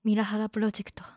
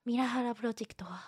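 First: It is said in a cool, stylish tone. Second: It is said in a plain, ordinary tone.

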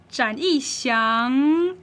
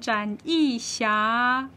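First: The last syllable ends with a nasal sound. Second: The last syllable ends with an open vowel. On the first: The speaker calls it right. "你就要把那个昂收到鼻子里面" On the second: The speaker calls it wrong. "不然就会变成展翼霞"

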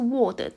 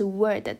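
First: The vowel has a rounded O-like sound. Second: The vowel is only a curled R sound. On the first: The speaker calls it wrong. "不是word 档" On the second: The speaker calls it right. "是word 档，都只有r 的音"

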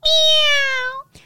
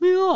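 First: A thin, high falsetto meow like a newborn kitten. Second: A poorly placed meow that sounds like an old cat.

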